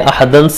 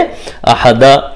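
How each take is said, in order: First: The word ends with an n sound. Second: The word ends with a long a vowel. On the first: The reader continues without stopping. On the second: The reader stops on this word.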